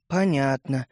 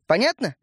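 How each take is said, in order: First: Low, dejected mumble; upset mumble. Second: Said in the usual way. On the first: A narrator's reading. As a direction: answer crestfallen, pitched down. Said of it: "расстроенно пробормотал Светлик". (расстроенно, бормоча)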